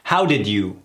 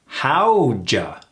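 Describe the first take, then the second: First: Each word is pronounced fully and separately. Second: The words blend into a short two-syllable reduction. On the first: "That's a mouthful" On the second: "Is reduced to howja"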